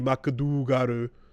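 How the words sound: The name is said with Japanese-style syllables. "the way that it was pronounced in Japanese"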